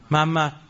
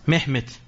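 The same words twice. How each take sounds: First: The name is said with a Persian pronunciation. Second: The name is said with a Turkish pronunciation. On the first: "ما میگیم چی؟" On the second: "این محمد رو تو لهجه مختلف متعلق ترکیه یا به محمد میگن چی؟"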